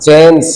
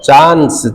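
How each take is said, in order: First: The vowel is a flatter front 'eh' sound. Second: The vowel is a long open 'ah' sound. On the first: This is the American way. "एक तरफ ए आ रहा है" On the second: This is the British way. "एक तरफ आ आ रहा है"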